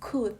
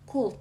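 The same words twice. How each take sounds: First: The L sound is left silent in the word. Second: The L sound is pronounced in the word. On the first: The speaker calls it right. "L-nya nggak usah dibaca" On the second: The speaker calls it wrong. "jangan dibaca could"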